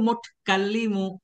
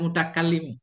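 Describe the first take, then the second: First: No vowel is heard after the first t. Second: A vowel is heard after the first t. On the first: The speaker calls it right. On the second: The speaker calls it wrong. "Nggak boleh"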